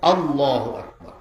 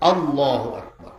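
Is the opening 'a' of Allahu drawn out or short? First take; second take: short; short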